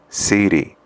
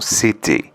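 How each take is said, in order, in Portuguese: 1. É pronunciada com sotaque americano. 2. É pronunciada com sotaque britânico. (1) "no inglês americano" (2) "no britânico"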